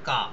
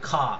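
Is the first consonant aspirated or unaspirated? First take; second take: unaspirated; aspirated. First: The k sound has no puff of breath. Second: The k sound has a strong puff of breath. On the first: "England এবং US এর লোকেরা বলে কা" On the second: "first সিলেবলটা stressed হয়ে যায় তাহলে হয়ে যাবে খা"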